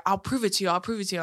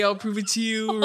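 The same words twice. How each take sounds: First: Said in the usual way. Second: Mock him, stretching the final "you"; mocking echo. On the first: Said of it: "he was like". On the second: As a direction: throw "I'll prove it to you" back mockingly. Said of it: "I'm nothing if not a fucking dick".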